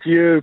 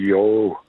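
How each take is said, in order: First: The word ends in an 'oo' vowel. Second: The word ends in an 'oh' vowel. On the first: This is the speaker's former way of saying it. "I used to call it you" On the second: This is the way learned from someone else. "I learned it's a yo"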